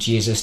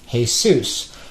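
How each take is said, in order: First: The name is pronounced the English way. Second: The name is pronounced the Spanish way.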